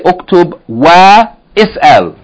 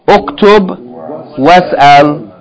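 First: The vowel of the second word is pronounced. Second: The vowel is dropped and 'wa' links on. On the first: The speaker calls it wrong. "So we don't say uktub wa is'al" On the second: The speaker calls it right. "We just say uktub was'al"

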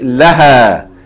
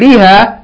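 First: The first vowel is an 'a' sound. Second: The first vowel is an 'i' sound. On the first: The speaker calls it right. "you say laha" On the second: The speaker calls it wrong. "Instead of saying liha"

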